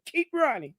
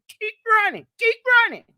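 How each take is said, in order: First: Said in the usual way. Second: Rising taunt. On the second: Real, not acted. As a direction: build the taunt up to a yell. Taunting a rival, repeated.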